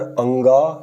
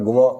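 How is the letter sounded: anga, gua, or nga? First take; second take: anga; gua. First: It is said as two syllables, anga. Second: It is said as two syllables, gua. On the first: "अंगा या गुआ अशुद्ध है" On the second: "अंगा या गुआ अशुद्ध है"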